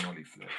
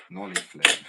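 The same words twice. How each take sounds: First: Said in the usual way. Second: High, loud shout; sudden high-pitched holler; trick call-out. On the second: Real, not acted. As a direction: yell the trick name out loud. Calling out a trick attempt.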